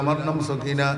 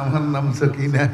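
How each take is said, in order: First: It is said in a plain, normal voice. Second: It is said in a sweet, soft voice. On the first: The speaker answers and moves on. The speaker calls it right. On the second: The speaker invites more conversation. The speaker calls it wrong.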